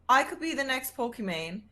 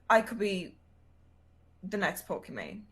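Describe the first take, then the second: First: It is said firmly, with confidence. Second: It is said tentatively, without confidence.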